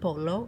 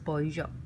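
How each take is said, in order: First: The middle consonant sounds like an L. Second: The middle consonant sounds like a Y. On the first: The speaker calls it wrong. "not polo" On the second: The speaker calls it right. "the double L in Spanish is pronounced as a Y"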